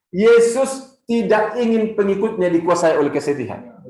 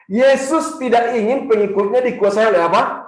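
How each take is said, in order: First: Said in the usual way. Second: "apa" asked with a rising tune for the crowd to answer; fill-in question. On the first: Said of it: "Saya ulang lagi, sekali lagi". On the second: Shown as a demonstration. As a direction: leave "apa?" hanging up for the congregation. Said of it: "saya akan mengajak kita mengucapkan".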